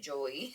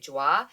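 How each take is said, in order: First: The name is said like the English name Joey. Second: The name is said like the French word joie. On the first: The speaker calls it wrong. "I always called it Joey" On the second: The speaker calls it right. "I guess it's pronounced like Joie"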